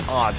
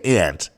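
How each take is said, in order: First: It is said with an East Coast 'ahnt' vowel. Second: It is said with a Midwestern 'ant' vowel.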